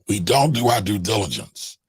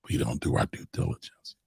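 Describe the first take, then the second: First: It is said noticeably louder and more forcefully. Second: It is said at normal speaking volume.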